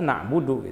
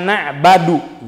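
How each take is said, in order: First: The vowel after the b is a 'u' sound. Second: The vowel after the b is an 'a' sound. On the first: The speaker calls it right. "yang ada na'budu" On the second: The speaker calls it wrong. "Na'badu itu tidak ada"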